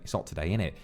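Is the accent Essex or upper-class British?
Essex. The h is dropped and the t's disappear. The speaker sounds like someone from around London. "maybe in nearby areas around London, maybe Essex ... drop the H and the T"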